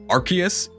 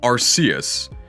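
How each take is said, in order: First: The name is said with its official English pronunciation. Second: The name is said with its Japanese pronunciation. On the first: "But in English, it's officially Arceus" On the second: "In Japanese, it's Arceus"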